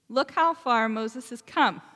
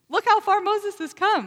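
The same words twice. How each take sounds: First: It is read in a solemn, formal reading voice. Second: It is said in a casual, everyday voice. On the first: The speaker calls it wrong. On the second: The speaker calls it right.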